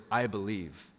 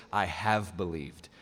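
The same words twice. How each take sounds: First: Said in the usual way. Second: Slow, low, deliberate "have believed"; robust declaration. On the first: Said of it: "a little bit more robust than that". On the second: Shown as a demonstration. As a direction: weigh out "have believed" firmly and slowly. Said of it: "a little bit more robust".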